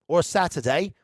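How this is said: It is said in a put-on British accent.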